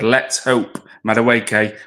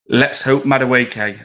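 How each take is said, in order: First: The word hope is strongly emphasised. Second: The word hope has no special emphasis.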